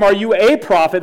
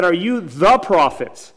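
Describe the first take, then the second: First: "a" stressed in its full form, like "ay". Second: Slow, with "the" drawn out and stressed; slow down and land hard on "the". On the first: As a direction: lean on the word "a", saying it as "ay". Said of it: "Notice they didn't ask him". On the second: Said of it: "They said". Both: Shown as a demonstration.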